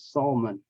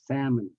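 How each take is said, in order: First: The L sound is pronounced in the word. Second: The L sound is silent in the word. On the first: The speaker calls it wrong. "a lot of Vietnamese pronounce it as salmon" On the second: The speaker calls it right. "It is not, it's salmon"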